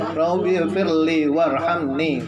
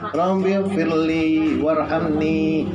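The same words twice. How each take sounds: First: The final 'ni' has a short vowel. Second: The final 'ni' has a long, drawn-out vowel. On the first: The speaker calls it wrong. "enggak boleh ... Salah itu" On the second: The speaker calls it right. "Ni-nya itu harus panjang"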